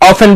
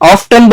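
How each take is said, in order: First: The t sound in the middle is silent. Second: The t sound in the middle is pronounced. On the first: This is the British pronunciation. "অফেন বললে British" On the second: This is the American pronunciation. "অফটেন বললে American"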